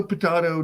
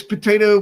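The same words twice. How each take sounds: First: Potato as po-TAH-to; potato, middle syllable rhyming with spa; potato with broad a. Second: Potato as po-TAY-to; potato, middle syllable rhyming with day; potato with long a. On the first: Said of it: "it's potato". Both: Shown as a demonstration.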